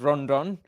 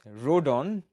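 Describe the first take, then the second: First: The name has an n before the d. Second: The name has no n before the d. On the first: The speaker calls it wrong. "not Rondon" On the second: The speaker calls it right. "Rodon, not Rondon"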